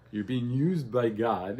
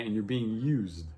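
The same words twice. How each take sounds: First: "used" drawn out slow and weighty, each word spaced; slow stress on used. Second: Said in the usual way. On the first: Shown as a demonstration. Teacher pressing the point to the class, slow stress on "used". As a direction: lean hard on "used" and slow right down.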